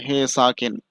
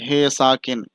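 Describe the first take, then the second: Both takes have the same delivery.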